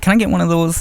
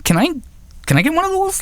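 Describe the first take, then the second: First: Said in the usual way. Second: Very high-pitched, imitated awkward request; mock guy asking. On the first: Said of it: "If you're a woman, you can be like". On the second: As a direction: mimic a man's request in a silly high voice. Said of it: "if you're a guy, you don't just walk up".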